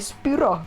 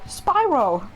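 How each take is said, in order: First: The name is said with a non-English pronunciation. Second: The name is said with an English pronunciation. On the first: "Normally I just say Spyro" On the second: "when I'm talking English I go Spyro"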